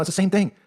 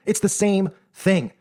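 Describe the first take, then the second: First: Said in the usual way. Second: "It's the same thing" drawn out very slowly, leaning on "the"; slow emphatic repeat. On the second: Shown as a demonstration. Vlogger hammering the point home to viewers, slow and emphatic. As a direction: spell out "It's the same thing" word by word, weighting "the".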